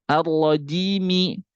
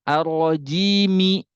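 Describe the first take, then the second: No difference in how they are said.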